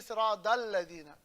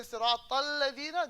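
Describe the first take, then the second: First: Sirat al-ladina with Sirat ending in d; accented recitation. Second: Sirat al-ladina with a t ending Sirat; accented recitation. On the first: Teacher quoting a major accent, d in Sirat. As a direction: turn the t of Sirat into a d. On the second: Teacher quoting accented reciters, t in Sirat. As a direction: keep the t crisp in Sirat al-ladina. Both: Retold or imitated. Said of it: "There's a major accent".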